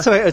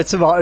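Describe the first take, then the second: First: Tomato as to-MAY-to, pitched up; American-style tomato. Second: Tomato as to-MAH-to; British-style tomato. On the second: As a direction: open tomato's middle to AH, to-MAH-to. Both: Shown as a demonstration. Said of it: "It's not tomato, tomato".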